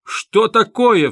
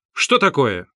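First: Much higher, louder and slow cry of shock; stunned outcry. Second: A sharp, irritated call at the door; annoyed shout. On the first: Porfiry hearing the confession, a high stunned outcry. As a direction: burst out, thunderstruck. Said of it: "вскричал Порфирий Петрович". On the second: Porfiry at the door, irritated at being disturbed. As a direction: snap at the interruption. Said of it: "крикнул с досадой". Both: A narrator's reading.

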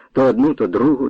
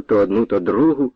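First: "одну" hit hard as the lash lands; stress on одну. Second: "то одну, то другу" lower, falling away on "другу"; lower echo. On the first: Narrator marks each blow, stressing "одну". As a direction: land the whip on "одну". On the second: Narrator repeats the beating, lower and fading. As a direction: let the repeat sink and fade. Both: A narrator's reading.

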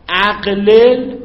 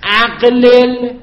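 First: اقلل repeated slowly, ending on a rise; slow dictation. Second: اقلل drawn out and loud, higher; slow dictation. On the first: Teacher checking students wrote it, slow rising اقلل. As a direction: drag out اقلل with a questioning lift. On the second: Teacher dictating to students, slow emphatic اقلل. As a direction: stretch out اقلل clearly for writing. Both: Shown as a demonstration. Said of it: "بگیم".

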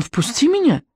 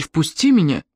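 First: High-pitched demand, no added volume; crying out. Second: Understated angry order; angry demand. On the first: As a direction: cry out to be let in, pitch raised. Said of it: "крикнул он". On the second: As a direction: demand entry with a touch of anger. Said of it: "Тоби со злостью заколотил в дверь". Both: A narrator's reading.

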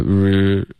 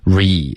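First: "r" as a bare rr-uh sound; missing ee. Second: "Re" with a long, full ee. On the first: Retold or imitated. Teacher imitates student's slip, vowel-less r. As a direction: hold the r with no ee after it. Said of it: "你发成了r". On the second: Shown as a demonstration. Teacher models for student, full vowel. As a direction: spread "Re" into a clear ee. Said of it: "这个一没有发的饱满".

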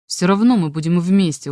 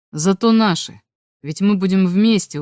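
First: Mildly insistent, dug-in reply; stubborn. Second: Mildly assured, firm reply; confident. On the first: Boy insisting to the girl who rejects him, stubborn. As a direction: insist on it, refusing to give in. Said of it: "упрямо сказал я". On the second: Boy reassuring his girlfriend about their future, confident. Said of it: "уверенно сказал я". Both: A narrator's reading.

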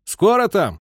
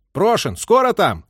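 First: Loud, high call into the dark; captain calling to the crews in the dark, shouting; shouting into darkness. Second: Impatient call. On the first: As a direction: call out to the crew far off. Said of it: "крикнул в темноту". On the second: Captain hurries the crew. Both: A narrator's reading.

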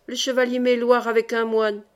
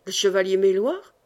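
First: Breathless cry. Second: "Le chevalier Méloir?" repeated as a rising, surprised question; startled repeat. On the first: Julien rushing in to warn the lords, calling out breathlessly. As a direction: cry out the alarm, winded. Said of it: "s'écria Julien le priol, essoufflé". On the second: Old lord echoing Julien's warning, surprised rising question. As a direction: echo the name in disbelief. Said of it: "répéta Maurevert". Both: A narrator's reading.

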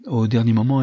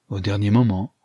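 First: Said in the usual way. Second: Understated surprised echo; betraying surprise. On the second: A narrator's reading. Archer hearing that the countess backed out, mild surprise. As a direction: repeat it as a mildly startled question. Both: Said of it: "trahissant sa surprise".

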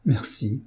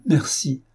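First: Soft, teary thanks; through tears. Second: Higher, tearful repeat of thanks; the second thanks lifts with a touch of tears; through tears, rising. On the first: Béatrice thanks Élise while weeping, softly tearful. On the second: Béatrice thanks Élise again, higher and teary. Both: A narrator's reading. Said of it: "lui dit-elle à travers ses larmes".

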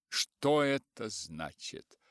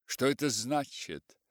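First: Slow, feigned cold calm. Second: Stern, angry question. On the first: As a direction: ask with forced composure. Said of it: "с притворным хладнокровием". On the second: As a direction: demand it crossly. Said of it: "спросил он сердито". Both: A narrator's reading.

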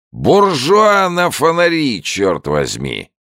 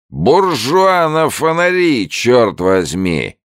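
First: Put-on much higher, louder, slow drunken holler; drawn-out drunken shout; drunk old man bellowing again. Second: Put-on much higher, louder, slow drunken holler; sing-song drunken shout from the shore; drunk old man bellowing. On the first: Drunk old man greeting the soldier, slow bellow. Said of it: "воскликнул старик". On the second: Drunk old man calling from the bank, slow bellow. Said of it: "раздался голос старика с берега". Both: A narrator's reading.

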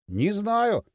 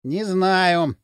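First: Curt brush-off. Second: Puzzled, drawn-out admission. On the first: Поршень shuts down Дрын's questions, curtly. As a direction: cut the questioning short. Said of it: "отрезал Поршень". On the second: Дрын wonders about the money, puzzled. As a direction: mull it over, at a loss. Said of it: "Дрын озадаченно поскрёб теме". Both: A narrator's reading.

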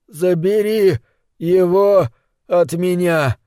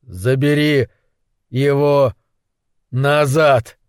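First: High, desperate pleading. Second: Forced out through clenched teeth; through gritted teeth. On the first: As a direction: beg for release. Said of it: "умолял он". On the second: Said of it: "выдавил сквозь сжатые зубы". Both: A narrator's reading.

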